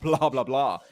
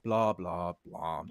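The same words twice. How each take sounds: First: It sounds triumphant and gloating. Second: It sounds defeated and deflated. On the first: The player is winning. "if he's dominating, it's like" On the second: The player has been knocked out. "if he gets eliminated, it's like"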